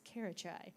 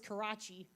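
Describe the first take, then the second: First: The name ends with a 'chai' sound. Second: The name ends with a 'chee' sound. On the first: The speaker calls it right. "it's not Karachi, it's Karachai" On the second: The speaker calls it wrong. "I always thought it was Karachi"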